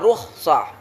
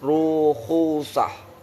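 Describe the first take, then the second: First: The kh is followed directly by s, no vowel. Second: A u vowel is sounded between kh and s. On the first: This reading is the more commonly used one. "dibaca rukhsah itu lebih banyak isti'mal" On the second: This reading is less commonly used. "daripada dibaca dengan rukhusah"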